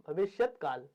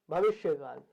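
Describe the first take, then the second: First: भविष्यत with a clear final t sound; correcting himself: भविष्यत काल, final t sounded; corrected pronunciation. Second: Said in the usual way. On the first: Shown as a demonstration. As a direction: fix it to भविष्यत, the t clearly voiced.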